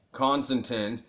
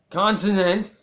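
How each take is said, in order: First: Said in the usual way. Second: Much higher and louder on "consonant"; mock exasperated shout. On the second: Real, not acted. Reader correcting a slip on consonant, mock exasperated shout. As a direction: burst out with a loud, high "consonant!".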